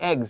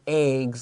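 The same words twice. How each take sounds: First: The vowel is a short E sound. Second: The vowel is a long A sound. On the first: "short E eggs" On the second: "long A eggs like a like April"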